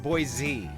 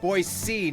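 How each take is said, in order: First: The middle consonant is a buzzing z sound. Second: The middle consonant is a hissing s sound. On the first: This is how outsiders say the name. The speaker calls it wrong. "not a Z" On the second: This is how locals say the name. The speaker calls it right. "it's a C, not a Z"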